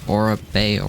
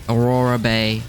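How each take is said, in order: Both takes have the same delivery.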